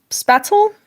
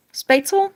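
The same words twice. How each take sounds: First: Spatzel with a short a as in cat, rising high; unsure pronunciation. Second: Spatzel with a long a as in space, rising high; unsure pronunciation. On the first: Streamer unsure of a German word, trying spatzel with short a. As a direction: try "spatzel" as SPAT-zel, questioning. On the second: Streamer unsure of a German word, trying Spatzel with long a. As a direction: try "Spatzel" as SPATE-zel, questioning. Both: Shown as a demonstration. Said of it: "I don't know how to say it".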